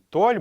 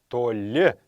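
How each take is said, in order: First: The stress falls on the first syllable. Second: The stress falls on the last syllable. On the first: The speaker calls it wrong. "не «толь» будет" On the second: The speaker calls it right. "Все калмыцкие слова имеют окончание на последний слог. ... а «толе» правильно произносится"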